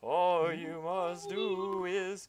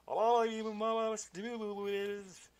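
First: High, slow, drawn-out ghostly wail; better ghost voice. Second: High, very slow warbling ghost wail; ghost voice again. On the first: Ghost delivering his prophecy to the player, high and slow. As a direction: stretch every word like a haunting spirit. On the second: Ghost retrying his message, high warbling wail. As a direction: quaver the words like a spirit. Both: Acted. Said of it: "I can do a better ghost voice".

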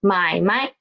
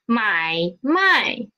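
First: 买卖 with a short, toneless 卖; neutral tone. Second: 买卖 with a dipping 买 and a full falling 卖; both full tones. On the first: Teacher shows the word meaning business, 买卖 with neutral-tone 卖. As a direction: say 买卖 with the second syllable unstressed. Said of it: "second word as the neutral tone". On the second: Teacher shows buy and sell, 买卖 in two full tones. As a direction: say both syllables of 买卖 separately in full tone. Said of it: "becomes to buy and sell". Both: Shown as a demonstration.

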